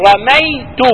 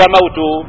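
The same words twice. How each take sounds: First: Said in the usual way. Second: رموت said with a clear waw, u sound before the t; رموت voiced as the mistaken waw form; wrong form rammut. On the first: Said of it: "ما تقول رموت". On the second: Shown as a demonstration. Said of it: "ما تقول".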